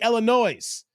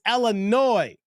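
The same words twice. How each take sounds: First: The final S is pronounced aloud. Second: The final S is left silent. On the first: The speaker calls it wrong. "we don't say Illinois" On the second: The speaker calls it right. "the S is silent"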